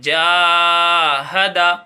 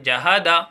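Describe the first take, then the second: First: The first vowel is drawn out long. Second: The first vowel is clipped short. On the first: The speaker calls it right. "जैसा बताया जा रहा है same to same पढ़ें" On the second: The speaker calls it wrong. "जहादा ऐसी गलती करते हैं"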